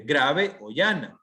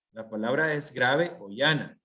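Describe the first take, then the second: First: "grave o llana" drawn out slowly, each word stressed; teacher stressing "grave o llana"; slow emphasis. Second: Said in the usual way. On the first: Shown as a demonstration. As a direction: spell the term out for the class. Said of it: "teacher spelling out the term". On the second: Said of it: "teacher repeating the term".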